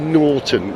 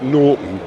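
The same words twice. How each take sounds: First: The middle T is clearly pronounced. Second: The middle T is dropped. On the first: The speaker calls it right. "how I say Norton" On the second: The speaker calls it wrong. "not Norton, which is what I used to say"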